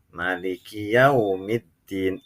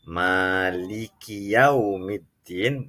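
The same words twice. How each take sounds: First: The first vowel of maliki is short. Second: The first vowel of maliki is long. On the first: "mimnya tidak dibaca panjang" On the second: "maknya dibaca panjang"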